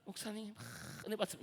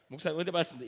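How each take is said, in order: First: The greeting is said piously with an emotional pause. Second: The greeting is said plainly, without flourish.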